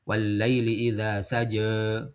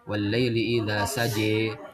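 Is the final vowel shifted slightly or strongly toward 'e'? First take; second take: slightly; strongly. First: The final vowel is only slightly bent toward e. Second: The final vowel is strongly bent toward e. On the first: "imalah sughra yaitu lebih ke harokat kasrah" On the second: "imalah kubra itu dia menyondongkan ke huruf ya-nya"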